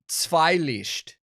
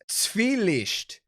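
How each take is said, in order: First: The first syllable has an 'eye' vowel. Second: The first syllable has an 'ee' vowel. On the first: The speaker calls it wrong. "not Zweilicht" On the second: The speaker calls it right. "It's Zwielicht"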